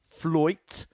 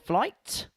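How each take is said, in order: First: It is said in a Portsmouth accent. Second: It is said in a standard accent.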